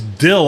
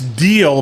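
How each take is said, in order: First: The vowel is a short 'i' sound. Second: The vowel is a long 'ee' sound. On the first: This is how the commercial says it. The speaker calls it wrong. "they say it is dill on the radio" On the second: This is how the word is normally said. The speaker calls it right. "it's deal"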